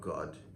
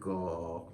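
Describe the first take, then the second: First: The final consonant is clearly pronounced. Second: The final consonant is dropped. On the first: The speaker calls it right. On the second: The speaker calls it wrong.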